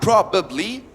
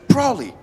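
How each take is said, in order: First: Every syllable of the word is pronounced. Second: A middle sound is dropped, shortening the word. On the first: The speaker calls it wrong. "it's actually not probably" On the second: The speaker calls it right. "but it's probably"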